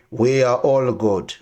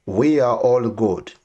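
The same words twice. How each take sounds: The two takes are said the same way.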